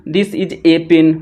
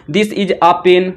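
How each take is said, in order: First: Slow, with "a" read as a full "ay"; "a" said as a clear "ay" before "pen". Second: Slow, with "a" reduced to a short "uh"; "a" said as a quick weak "uh" before "pen". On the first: Teacher showing the second correct reading, "a" as "ay". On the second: Teacher showing the first correct reading, "a" as "uh". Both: Shown as a demonstration. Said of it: "सब सही है".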